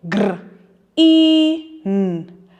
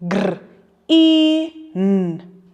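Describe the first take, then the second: The two takes are said the same way.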